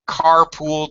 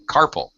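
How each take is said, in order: First: The second syllable is a full 'pool' sound. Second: The second syllable is weak and reduced. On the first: The speaker calls it wrong. "do not say" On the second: The speaker calls it right. "Not pool, we're stressing the first syllable. So carpal"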